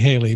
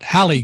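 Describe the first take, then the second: First: The first syllable has a long 'ay' vowel. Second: The first syllable has a short 'a' vowel. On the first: This is the real pronunciation of the name. "I'm smart enough to know that it's really Haley" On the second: This is how her mother says the name. "sometimes her mom pronounces it Hallie Cooper"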